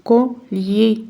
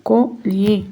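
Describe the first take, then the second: No difference in how they are said.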